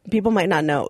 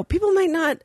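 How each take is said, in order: First: Said in the usual way. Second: High mock worried voice on people; hammed-up high fretting; mock concern. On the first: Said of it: "Like, oh, people might not". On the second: Shown as a demonstration. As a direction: pitch it up, faux-earnest.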